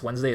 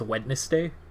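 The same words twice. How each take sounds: First: It is said the usual way, two syllables. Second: It is said as spelled, with three syllables.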